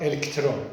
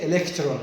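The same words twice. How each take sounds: First: Electron said EL-k-tron, vowel dropped; wrong pronunciation. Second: Electron said e-LEK-tron; correct pronunciation. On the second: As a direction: electron with short clear vowels. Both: Shown as a demonstration. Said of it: "we say electron, not electron".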